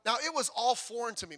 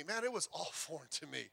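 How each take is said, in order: First: Said in the usual way. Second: Laughing, softer. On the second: Real, not acted. Pastor admitting church felt strange, laughing softly. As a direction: repeat it, softer, laughing mid-line.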